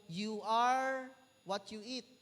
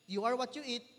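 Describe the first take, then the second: First: Drawn-out, deliberate slogan read; slow quoted slogan. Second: Said in the usual way. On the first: Retold or imitated. Preacher quoting a slogan to the congregation, slow and deliberate. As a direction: spell out each word slowly like a motto. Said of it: "sabi na doon". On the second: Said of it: "Ibig sabihin".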